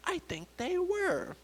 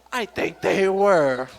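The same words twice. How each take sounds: First: Very high, soft, slow murmur; coworker lady. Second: Slow, drawn-out echo in own register; pointed parody. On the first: Coworker lady answers her own question, high and soft. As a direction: draw it out high and softly. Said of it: "she pulls me aside and she goes". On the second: Comedian turns coworker's line back on her, slow and pointed. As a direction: stretch it out and throw it back. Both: Retold or imitated.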